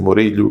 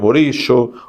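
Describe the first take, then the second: First: The name is said in a Spain Spanish accent. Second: The name is said in a non-Spain Spanish accent. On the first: "vou ler assim, Murillo, que fica no espanhol, de Espanha" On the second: "cada lugar aqui da América do Sul ou da América Central, o castelhano vai ser pronunciado de uma maneira diferente"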